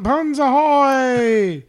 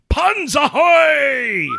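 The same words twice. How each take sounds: First: It is said flatly, without enthusiasm. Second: It is said loudly, with full enthusiasm.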